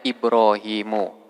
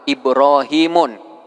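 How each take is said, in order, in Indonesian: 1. Kata ini diakhiri dengan vokal, tanpa n. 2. Kata ini diakhiri dengan bunyi n tambahan. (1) "tanpa tanwin" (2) "Tidak boleh kita membaca"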